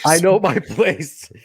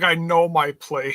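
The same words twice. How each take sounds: First: Laughing echo. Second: Mock demure quote. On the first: Retold or imitated. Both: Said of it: "she's like".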